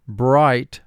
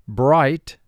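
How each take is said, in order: No difference in how they are said.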